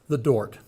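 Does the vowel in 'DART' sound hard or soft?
soft. The vowel in DART sounds soft and rounded. The speaker comes from a well-off suburb. "it's known as the Dort"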